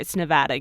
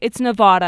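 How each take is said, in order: First: The name is said in a plain, local way. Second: The name is said in an exaggerated, pompous way. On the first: This is how local people say the name. The speaker calls it right. "I live there" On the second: This is how outsiders say the name. The speaker calls it wrong. "I hate when people do it 'cause they're like"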